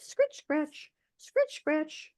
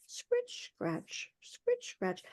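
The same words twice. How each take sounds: First: Raised, hushed scritch scratch, each falling; scratchy carding sound. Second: Whispered, much softer scritch scratch; hushed carding sound. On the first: Teller mimics the old woman's carding, softly raised. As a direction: voice the wool cards scraping, high and soft. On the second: Teller mimics the wool cards as the leader peeps in, in a hush. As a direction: breathe the scraping out almost silently. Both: A narrator's reading.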